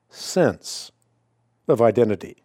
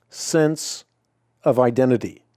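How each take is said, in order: Both takes have the same delivery.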